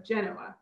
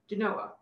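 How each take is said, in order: First: "Genoa" with the first syllable stressed; alternate pronunciation. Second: "Genoa" with the middle syllable stressed; self-corrected pronunciation. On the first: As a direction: say "Genoa" as JEN-oh-uh. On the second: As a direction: say "Genoa" as juh-NO-uh. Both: Real, not acted.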